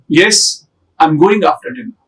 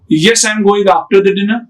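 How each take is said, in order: First: There is a short pause after yes. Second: It is rushed with no pause after yes.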